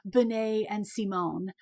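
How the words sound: The names are pronounced with French sounds. The speaker calls it right. "they're technically French, so it should be"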